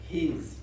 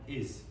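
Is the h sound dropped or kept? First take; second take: kept; dropped. First: The word begins with a clear h sound. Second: The h is dropped in a weak form. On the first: The speaker calls it wrong. "You don't say his" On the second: The speaker calls it right. "You say t and is"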